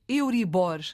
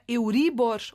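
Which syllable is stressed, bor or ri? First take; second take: bor; ri. First: The stress falls on the syllable bor. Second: The stress falls on the syllable ri. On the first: "ou é no O" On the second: "O acento é no I"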